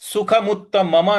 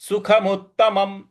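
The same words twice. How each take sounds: First: The final m is followed by a full vowel. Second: The word ends on a bare m sound. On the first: The speaker calls it wrong. "इसको हम सुखमुत्तमम नहीं पढ़ेंगे" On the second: The speaker calls it right. "सुखमुत्तमम इस प्रकार से पढ़ेंगे"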